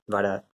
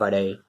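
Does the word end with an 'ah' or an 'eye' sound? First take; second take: ah; eye. First: The word ends in a plain 'ah' vowel. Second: The word ends in an 'eye' sound. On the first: This is the everyday spoken form. "It's always dosa, vada" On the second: This is the formal written form. "in formal Tamil ... but no one says that"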